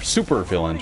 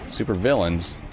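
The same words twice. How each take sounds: First: The emphasis falls on the expected word. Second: The emphasis falls on the unexpected word. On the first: The speaker calls it right. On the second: The speaker calls it wrong.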